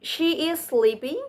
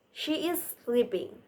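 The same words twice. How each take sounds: First: "She is sleeping" with pitch rising sharply on sleeping; question intonation. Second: "She is sleeping" with the pitch falling at the end; softer, settled fall on sleeping; statement intonation. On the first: Presenter contrasting sentence types, "She is sleeping" as a rising question. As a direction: ask it, higher, lifting at the end of sleeping. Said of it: "It's different with a". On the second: Presenter showing sentence types, "She is sleeping" as a falling statement. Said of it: "like questions or statement". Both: Shown as a demonstration.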